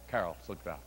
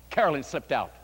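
First: Much lower and softer, almost under the breath; hushed refrain. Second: Said in the usual way. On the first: A narrator's reading. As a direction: let it drop away as she leaves. Refrain repeated softly.

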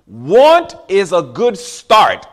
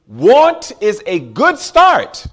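First: Very slow, weighted words; slow preaching emphasis. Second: Louder, very slow and deliberate; slow preaching emphasis. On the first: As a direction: lay each word down slowly. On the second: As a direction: drive it home slowly over music. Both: Real, not acted. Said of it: "Don't lose that".

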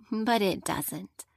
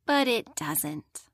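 First: "But it doesn't" said slowly with weight on But; slow down and land on "But"; slow emphatic. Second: "But it doesn't" lower and slower, But stressed; slow emphatic. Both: Shown as a demonstration.

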